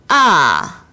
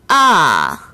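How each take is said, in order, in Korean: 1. 음높이가 높은 데서 낮은 데로 급하게 떨어집니다. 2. 음높이가 높은 데서 낮은 데로 급하게 떨어집니다.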